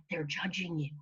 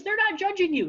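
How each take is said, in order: First: Low, soft inner bully; hushed, lowered negative self-talk voice. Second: Quick, high, insistent correction on "not"; emphatic reassurance. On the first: Acted. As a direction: lean in quietly like the voice of doubt. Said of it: "Your self-talk voice said". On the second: Shown as a demonstration. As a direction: stress on NOT, pitched high and loud. Reassuring contrast to bully's line.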